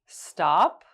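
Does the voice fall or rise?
rise. The pitch goes up.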